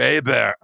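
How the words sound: The name is said with French pronunciation.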